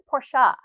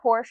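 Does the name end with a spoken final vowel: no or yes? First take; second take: yes; no. First: The name ends with an extra vowel syllable. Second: The name ends on the sh sound. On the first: The speaker calls it right. "it's Portia" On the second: The speaker calls it wrong. "It's not Porsche"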